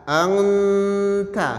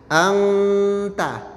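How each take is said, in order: No difference in how they are said.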